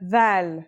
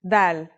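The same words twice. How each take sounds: First: Dal starting with TH as in "this", drawn out slowly; slow dal, its D softened to a voiced TH. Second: Dal starting with a plain English D; dal with a hard D, not TH; plain D sound. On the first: Teacher introducing the second letter, dal with voiced TH. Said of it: "like the T H sound in the word this". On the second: Teacher recalling the previous letter, dal with a plain D. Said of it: "looks like the previous letter". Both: Shown as a demonstration.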